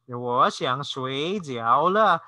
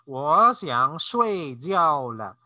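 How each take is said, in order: First: Shuijiao is said with dipping third tones. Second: Shuijiao is said with falling fourth tones. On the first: The speaker wants dumplings. The speaker calls it wrong. "if you change the tone to 睡觉, third tone" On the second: The speaker wants to go to sleep. The speaker calls it right. "it's 睡觉 fourth tone or falling tone"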